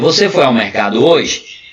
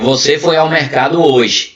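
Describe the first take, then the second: First: The voice rises at the end like a question. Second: The voice falls at the end like a statement. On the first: It asks whether the person went to the market. "Isso aí já é uma outra coisa" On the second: The person went to the market. "Eu estou afirmando que a pessoa foi"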